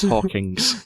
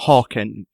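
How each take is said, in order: First: Hawking's drawn out slowly, with a hissed s; slow, deliberate Hawking's, ending in s; mock pronunciation. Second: Hawking said plainly, without the s; Hawking, ending on the g; plain name. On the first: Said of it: "It's Hawking's". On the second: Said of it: "it's Hawking's". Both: Shown as a demonstration.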